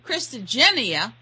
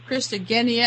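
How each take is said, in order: First: The G is soft, like a J sound. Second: The G is hard, like in go. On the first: The speaker calls it wrong. "some people pronounce it Christogenia" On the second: The speaker calls it right. "why you pronounce it Christogenia"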